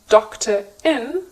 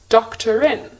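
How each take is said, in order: First: The words are separate with no R sound. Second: An R sound links the two words together. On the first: "Instead of saying doctor in" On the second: "the sounds connect and the R is now pronounced"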